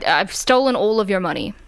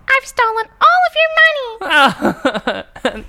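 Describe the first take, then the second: First: It is said in a normal voice. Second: It is said in a chipmunk voice.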